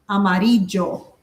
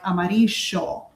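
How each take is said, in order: First: The double L sounds more like a J. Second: The double L has the Argentine sound. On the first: "here they say more of like an amarillo, more like a J" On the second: "like in Argentina they say more like amarillo"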